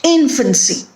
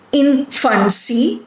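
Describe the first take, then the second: First: "Infancy" as one word, IN-fan-cy, falling; first-syllable stress. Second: "infancy" broken into in, fan, cy, rising at the end; syllable by syllable. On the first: Teacher confirming the stressed syllable, first-syllable stress on "Infancy". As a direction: stress the IN of "Infancy" and let the rest drop. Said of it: "the first syllable is stressed". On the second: Teacher counting syllables for students, "infancy" said syllable by syllable. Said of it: "it has three syllables in it". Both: Shown as a demonstration.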